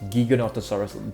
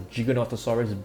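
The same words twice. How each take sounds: First: The opening sounds like 'giga' in gigabyte. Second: The opening does not sound like 'giga' in gigabyte. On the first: The speaker calls it right. "just like Gigabyte" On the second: The speaker calls it wrong. "It is actually not known as the Giganotosaurus"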